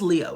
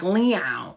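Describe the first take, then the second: First: The name is said short and plain. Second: The name is stretched out and dragged.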